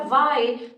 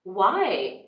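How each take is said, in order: First: It is said without a questioning sense. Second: It is said as a real question. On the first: The speaker calls it wrong. "और मैंने क्या बोला?" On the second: The speaker calls it right. "Why मतलब एक question के sense में"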